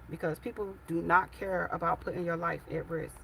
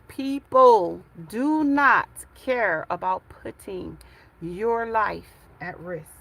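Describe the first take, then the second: First: It is said at normal volume. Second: It is said loudly.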